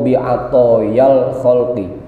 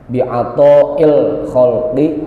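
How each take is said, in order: First: A y sound is added between the words. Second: A glottal stop is added between the words. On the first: "tambahin ya boleh ya" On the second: "kalau mau ditambahin hamzah"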